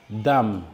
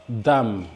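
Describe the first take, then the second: The two takes are said the same way.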